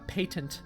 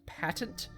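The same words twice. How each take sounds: First: The word is said the British way. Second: The word is said the American way.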